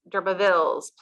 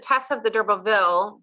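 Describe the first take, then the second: First: The name ends with a final s sound. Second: The name ends without a final s sound. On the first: The speaker calls it right. "but it's D'Urbervilles, plural" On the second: The speaker calls it wrong. "Because I had said Tess of the D'Urberville"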